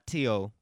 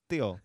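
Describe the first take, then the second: First: The name begins with a plain t sound. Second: The name begins with a th sound. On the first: The speaker calls it wrong. "Not Tio" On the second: The speaker calls it right. "but Theo"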